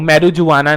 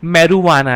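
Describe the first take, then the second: First: A 'j' sound is pronounced in the middle. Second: No 'j' sound is pronounced in the middle. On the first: The speaker calls it wrong. "वो मैरुजुआना नहीं है" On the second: The speaker calls it right. "जे इसका silent है, इसलिए ये मैरुवाना है"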